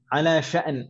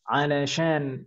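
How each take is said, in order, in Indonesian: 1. Diucapkan sebagai dua kata penuh yang terpisah. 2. Digabung menjadi satu kata. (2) "orang-orang mengucapkannya jadi alasyan"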